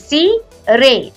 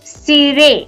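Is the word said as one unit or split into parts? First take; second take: split; one unit. First: The word is split into two separate sounds. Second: The word is said smoothly as one unit.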